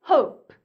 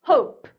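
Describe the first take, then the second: Both takes have the same delivery.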